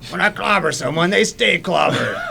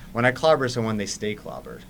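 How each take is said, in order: First: It is said in a put-on character voice. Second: It is said in the speaker's ordinary voice.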